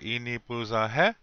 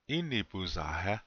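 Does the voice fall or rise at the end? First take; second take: rise; fall. First: The pitch rises at the end of the question. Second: The pitch falls at the end of the question. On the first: The speaker calls it wrong. "You don't say it like that. That is incorrect" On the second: The speaker calls it right. "But in Lakota, it's the other way"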